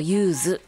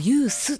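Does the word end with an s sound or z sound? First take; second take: z sound; s sound. First: The word ends with a buzzing z sound. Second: The word ends with a hissing s sound. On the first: It is the verb meaning to use something. "動詞だとuse っていいんですけど" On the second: It is the noun meaning usefulness. "名詞になるとuse という言い方に変わります"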